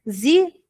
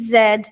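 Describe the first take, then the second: First: The letter is said the American way, zee. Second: The letter is said the British way, zed. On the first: "Z para a pronúncia norte-americana" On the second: "Z para a pronúncia europeia"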